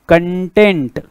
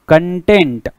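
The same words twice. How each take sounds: Both takes have the same delivery.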